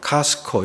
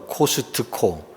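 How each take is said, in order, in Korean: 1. 이 단어는 두 음절로 발음합니다. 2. 이 단어는 네 음절로 발음합니다. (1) "이음절식으로 카스코" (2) "사음절로 코스트코"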